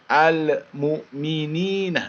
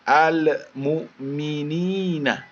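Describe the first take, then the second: Both takes have the same delivery.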